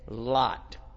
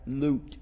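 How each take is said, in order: First: The name has the vowel heard in 'lot'. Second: The name has a long 'oo' vowel. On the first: The speaker calls it wrong. "They're mispronouncing it" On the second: The speaker calls it right. "They need another O and it would be correct"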